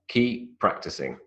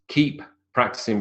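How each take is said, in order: First: The p at the end of 'keep' is dropped. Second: The p at the end of 'keep' is pronounced.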